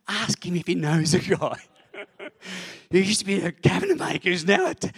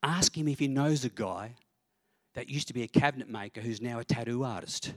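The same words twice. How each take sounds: First: Loud, high, insistent pestering voice; nagging inner voice. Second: Lightly voiced inner prompting, slightly raised; a hint of a nudging shoulder voice; little inner voice. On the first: Retold or imitated. Voice on the shoulder that won't stop, loudly nagging. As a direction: nag loudly, high-pitched and relentless. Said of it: "So finally this voice won't stop". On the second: Little voice prompting the pastor at dinner, lightly voiced. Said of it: "this little voice on my shoulder sort of says".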